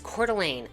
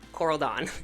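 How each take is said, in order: First: The name ends with a 'lane' sound. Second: The name ends with a 'dawn' sound. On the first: The speaker calls it right. "it's Coeur d'Alene" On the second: The speaker calls it wrong. "not Coral Dawn"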